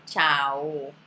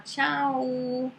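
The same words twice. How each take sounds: First: "tchau" drawn out slowly with a clear final O; Italian final O. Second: "tchau" drawn out slowly, ending in "oo"; Portuguese final U. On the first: Teacher showing what Brazilians don't say, "tchau" ending in a clear O. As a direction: end "tchau" on an open "oh", chah-oh. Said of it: "falar a letra O com som de U". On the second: Teacher showing what Brazilians say, "tchau" with a long final U. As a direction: stretch "tchau" into a closed U ending. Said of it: "com som de U". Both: Shown as a demonstration.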